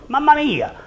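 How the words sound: It is said in a surprised tone. Look what is happening here. "I could say Mamma Mia if I'm surprised"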